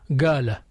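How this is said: The word begins with a g sound. This is a regional dialect pronunciation. The speaker calls it wrong. "In Yemen, parts of Egypt, they say غا"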